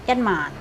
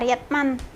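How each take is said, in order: First: The syllable 'man' is said on a low pitch. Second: The syllable 'man' is said on a high pitch. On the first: It means ten thousand. "mannya tuh agak turun begitu. Nadanya tuh gede, bass" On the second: It means one dollar. "nadanya agak tinggi itu dolar"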